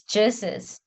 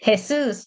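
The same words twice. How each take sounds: First: "Jesus" said the English way, JEE-sus; English "Jesus" with a j sound; English pronunciation. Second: "Jesus" said the Spanish way, heh-SOOS; Spanish "Jesus" with an h sound; Spanish pronunciation. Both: Shown as a demonstration. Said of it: "in English is Paul".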